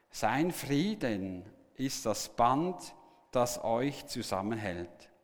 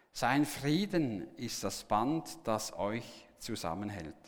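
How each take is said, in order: No difference in how they are said.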